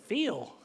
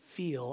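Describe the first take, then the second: First: Southern drawn-out FEEL; southern-accented "feel", closer to fill. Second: Said in the usual way. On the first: Shown as a demonstration. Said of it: "that's my southern accent coming out". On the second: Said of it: "Instead of saying feel, I'm saying feel".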